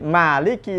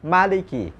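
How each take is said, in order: First: The first vowel is held long. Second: The first vowel is kept short.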